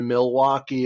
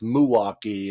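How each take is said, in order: First: "Milwaukee" with the l sounded, "mil-WAH-kee"; fully sounded "Mil" in "Milwaukee"; standard pronunciation. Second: "Milwaukee" as "muh-WAH-kee"; slurred first syllable, "M'waukee" for "Milwaukee"; local pronunciation. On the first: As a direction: say "Milwaukee" with a full first syllable "mil". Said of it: "it's Milwaukee". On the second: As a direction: say "Milwaukee" with the l swallowed. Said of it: "everyone has their own way". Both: Shown as a demonstration.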